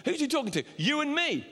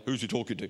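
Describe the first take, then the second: First: Much higher, rising preacher's question; high-pitched repeat; high again. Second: Asked again in a much lower voice; deliberately lowered repeat; lower, reset pitch. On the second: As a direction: pull the voice back down low. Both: Shown as a demonstration. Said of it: "I don't know why my voice went high then".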